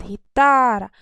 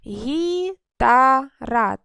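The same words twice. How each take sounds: First: «Гітара» разом, із гучним протяжним «та»; виділи другий склад у «Гітара»; наголос на другому складі. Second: «Гітара» дуже повільно по складах: гі — та — ра; розтягни й розділи три склади в «Гітара»; поділ на склади. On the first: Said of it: "на другий склад". («Гітара» одним словом, з сильним наголосом на «та») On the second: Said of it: "три склади". («Гітара» гучно, протяжно, склад за складом) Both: Shown as a demonstration.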